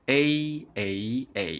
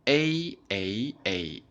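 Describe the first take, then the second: The two takes are said the same way.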